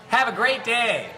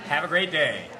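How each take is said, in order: First: It is said in a high-pitched voice. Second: It is said in a normal, lower pitch. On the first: "the high pitched one. up there" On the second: "That's how I say it"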